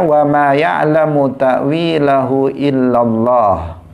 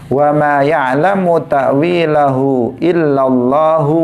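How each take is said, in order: First: The recitation stops right after the word Allah. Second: The recitation runs on past Allah without stopping. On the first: Only God knows its interpretation. "ayat ini waqaf pada lafzul jalalah illallah" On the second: God and the deeply learned know its interpretation. "bisa juga dibaca dengan waqaf pada warasikhuna fil ilm"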